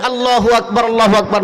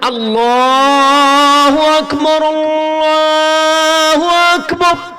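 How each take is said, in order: First: It is said softly and quietly. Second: It is said loudly and strongly.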